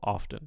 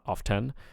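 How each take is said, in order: First: The stress is on the first syllable. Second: The stress is on the second syllable. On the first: The speaker calls it right. "there is primary stress on the first syllable" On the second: The speaker calls it wrong. "not often"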